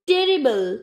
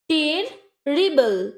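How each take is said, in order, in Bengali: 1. সিলেবলগুলো ফাঁক ছাড়াই মসৃণভাবে জোড়া লাগানো হয়। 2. সিলেবলগুলো আলাদা করে, ফাঁক রেখে বলা হয়।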